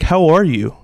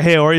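First: "How are you?" asked with weight on ARE; pointed question. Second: Said in the usual way. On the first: Shown as a demonstration. Host showing co-hosts the question that throws you, pointed emphasis on ARE. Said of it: "no, no, not even like a". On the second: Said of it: "not even like a".

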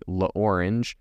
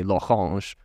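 First: La Orange said like the English fruit, OR-inj; American pronunciation. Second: L'Orange said the French way, lo-RAHNZH; French pronunciation. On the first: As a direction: say La Orange with a plain American R and a J ending. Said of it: "So an American might say". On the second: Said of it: "spent a couple years in France". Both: Shown as a demonstration.

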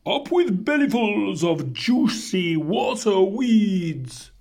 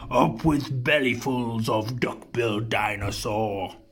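First: High-pitched hooted cheer; hooting duck-billed dinosaurs. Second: Low, menacing chant; understated mock shout. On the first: Herd cheering for its favourite food, high hooting. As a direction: hoot it like a happy herd chant. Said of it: "and they hooted". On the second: Tyrannosaurus pair hungry for duck-bills, low restrained shout. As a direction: chant it low, without raising your voice. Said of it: "And they shouted". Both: A narrator's reading.

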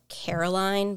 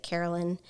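First: Caroline as the written spelling, said plainly; Caroline, the name as it is spelled; spelling-style name. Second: Carolyn with a short final syllable, lyn; name as pronounced. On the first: Host explaining the author's name spelling, plain read. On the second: Host telling listeners how the author says Carolyn. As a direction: say Carolyn, ending lin not line. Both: Shown as a demonstration. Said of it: "she pronounces it Carolyn".

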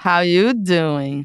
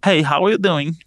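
First: "How you doing" slow, low, leaning on "you"; Joey's "how you doing". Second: "how are you doing" as a plain question, stress on "are"; wrong intonation. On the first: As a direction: drawl it like a flirty Joey. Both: Shown as a demonstration. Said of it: "Fez errado a entonação".

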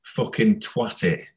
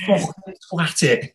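First: Slow, understated Scouse imitation; retold Scouse shout, kept at talking volume; lightly voiced Scouse accent, drawn out; Steve Redmond. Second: High-pitched, drawn-out Scouse yell; mock Scouse shout, much higher than usual voice; Steve Redmond. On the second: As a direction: imitate a Scouse team-mate yelling, slow and high. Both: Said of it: "Steve Redmond shouting his Scouse accent".

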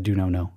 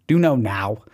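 First: "do know, no" with the last word said like "no"; last word of "do know, no" rhyming with "know"; slip of the tongue. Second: "Do know now" with a clear ow in "now"; "now" carefully sounded out to fix the slip; corrected pronunciation. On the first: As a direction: repeat the slip "do know, no", ending on a long o. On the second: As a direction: correct it firmly, "now" rhyming with "cow". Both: Shown as a demonstration. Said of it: "I just said do know, no".

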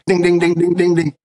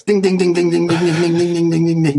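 First: Correct answer ding. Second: A bright, repeated bell ding; correct answer ding. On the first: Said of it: "I'm just gonna go". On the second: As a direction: chime ding ding like a game-show bell. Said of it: "go like this". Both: Pretend.

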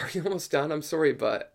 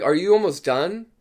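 First: Softer, tentative polite question; polite, apologetic. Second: High, rising question to the dentist; acted polite check, lifting at the end; polite asking. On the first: Retold or imitated. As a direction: ask meekly, excusing yourself. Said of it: "I asked him politely". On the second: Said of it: "And I asked him politely".

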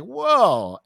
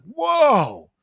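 First: High drawn-out wow; amazed whoa. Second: High, loud astonished whoa; stunned whoa. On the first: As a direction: let the amazement hang. Retelling same stunned reaction. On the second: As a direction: blurt it out, amazed. Friends stunned, Samus is female. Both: Retold or imitated.

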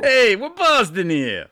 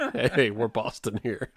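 First: Loud, high, drawn-out mock Boston holler; bad Boston accent. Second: Slow, understated Boston parody at normal pitch; mock Boston accent. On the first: Podcaster botching East Coast talk, bad Boston accent. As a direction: call it out in a hammed-up Boston accent. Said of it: "how my East Coast accents end up". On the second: Co-host repeating the running joke, mock Boston accent. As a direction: drag out a half-hearted Boston accent. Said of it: "do a Boston accent".

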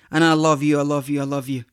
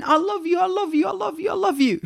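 First: Said in the usual way. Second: Put-on much higher, childlike sing-song; daughters gushing. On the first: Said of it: "we start just screaming to our Lord". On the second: Dad imitating his daughters saying I love you, high childlike gushing. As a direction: imitate little girls rushing out their love. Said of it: "they just start screaming".

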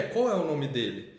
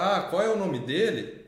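First: Slow echo with a falling end; child repeating correction. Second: Slow question, swelling on "qual é o"; gentle corrective recast. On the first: Boy echoing the corrected question, slow and measured. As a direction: stretch "qual é", let "dele" fall. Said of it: "jeito de repetir". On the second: Adult repeating the boy's question corrected, slow and deliberate. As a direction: stretch "qual é o nome dele", falling at the end. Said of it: "na entonação e no jeito de repetir". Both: Retold or imitated.

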